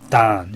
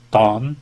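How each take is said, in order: First: The vowel is an open 'ah' sound. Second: The vowel is a broad rounded 'aw' sound. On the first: This is how the northeast and west say it. "dan 이런 식으로 아처럼 발음을 합니다" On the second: This is how the red-marked regions say it. "넓은 우, 즉 이런 발음이었죠"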